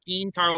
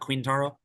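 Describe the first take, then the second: First: The name begins with a plain K sound. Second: The name begins with a KW sound. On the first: The speaker calls it right. "with like a K sound is what you're saying. That's how he pronounces it" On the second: The speaker calls it wrong. "It's not Quintaro, like it looks like"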